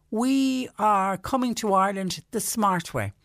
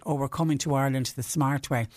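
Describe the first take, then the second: First: Lightly put-on American accent, higher and slower. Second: Said in the usual way. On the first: Host retelling smug tourists in a light American accent. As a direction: boast it in a mild mock American accent. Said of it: "Is that an American accent I hear?". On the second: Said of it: "the tourists themselves even said".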